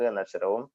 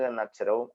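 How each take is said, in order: No difference in how they are said.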